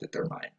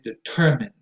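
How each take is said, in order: First: The last syllable sounds like the word "mine". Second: The last syllable is a short, weak "min". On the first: The speaker calls it wrong. "not determine" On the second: The speaker calls it right. "it is determine"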